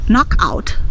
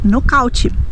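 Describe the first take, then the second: First: It is said with an English pronunciation. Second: It is said with a Brazilian Portuguese pronunciation. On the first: "Nós não vamos dizer knockout" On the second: "nós vamos dizer knockout"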